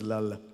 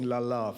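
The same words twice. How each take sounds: First: The name ends with a final schwa sound. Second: The name ends without a final schwa sound. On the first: The speaker calls it right. "The proper pronunciation is Lala, so that there's a schwa at the end" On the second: The speaker calls it wrong. "in English we keep saying Lala for some reason"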